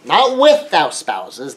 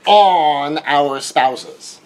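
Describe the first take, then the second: First: "with" stretched slowly, rising at the end; stress on WITH. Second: "on" drawn out and slow; stress on ON. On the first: Contrasting for listeners, stressing with slowly. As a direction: hold and lift "with" slowly. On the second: Teaching about marriage, stressing on heavily. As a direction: lean hard on "on", very slowly. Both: Shown as a demonstration.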